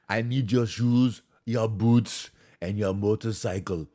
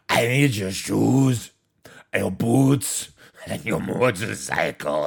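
First: It is said without the second impersonated voice. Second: It is said in a put-on impersonated voice.

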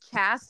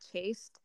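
First: The vowel is short, like in 'cast'. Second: The vowel is long, like in 'case'. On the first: The speaker calls it wrong. "Remember when I thought it was Chast" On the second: The speaker calls it right. "chaste obviously makes more sense because there's an E at the end"

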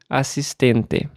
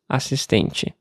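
First: The final te keeps a plain T sound. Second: The final te has a changed T sound. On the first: This is the accent of one home region. "o sotaque usava o som de T nas palavras terminadas em TE como T" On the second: This is the accent of a later region. "adaptei o meu TE, no fim das palavras, ao sotaque de lá"

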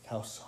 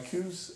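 First: The vowel is an 'ow' sound, like house. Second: The vowel is an 'oo' sound, like goose. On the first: "they pronounce it cows in a lot of places" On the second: "And my coos hunt"

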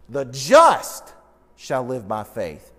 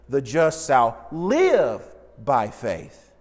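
First: The word just is stressed. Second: The word live is stressed. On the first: "the focus is on the word just" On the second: "the focus is on the word live"

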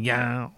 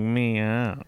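First: The meow is said in a Cajun accent. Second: The meow is said in a Southern drawl. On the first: "Or like Cajun cats" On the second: "there's like a southern cat?"

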